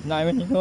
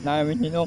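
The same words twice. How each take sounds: The two takes are said the same way.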